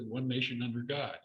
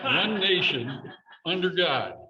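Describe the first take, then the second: First: It is said without a pause before 'under God'. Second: It is said with a pause before 'under God'.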